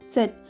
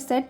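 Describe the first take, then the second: First: The word begins with a ts sound. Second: The word begins with a plain s sound. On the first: "च से प्रोनाउंस किया तो एकदम बराबर आता है" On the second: "सिर्फ सेट भी बोल सकते हैं, शुरू में सेट"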